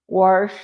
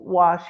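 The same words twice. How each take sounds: First: Wash said as warsh, an r before the sh. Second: Said in the usual way. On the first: Shown as a demonstration. Demoing warsh for a caller. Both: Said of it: "equals w-, wash here in the hollers".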